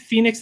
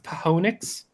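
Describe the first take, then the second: First: The word is said the usual way, Phoenix. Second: The word is said as Pa-ho-nix. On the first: The speaker calls it wrong. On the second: The speaker calls it right.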